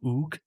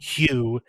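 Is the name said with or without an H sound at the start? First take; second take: without; with. First: The name starts without an H sound. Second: The name starts with an H sound. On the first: It follows a French-style reading of the letters. "Mel is clearly just making the first H silent" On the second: It keeps the English pronunciation. "defaulting to the English the English pronunciation"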